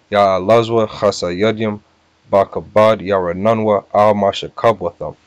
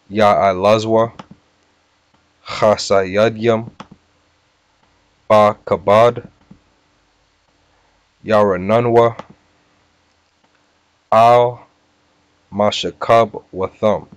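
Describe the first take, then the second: First: The phrase is said at a faster pace. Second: The phrase is said at a slower pace.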